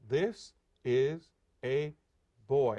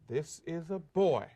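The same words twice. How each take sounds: First: The phrase is said at a slower pace. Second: The phrase is said at a faster pace. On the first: "we do it to get the rhythm" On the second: "we say a little faster"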